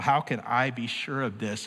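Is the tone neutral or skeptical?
neutral. It is read in a plain, neutral tone.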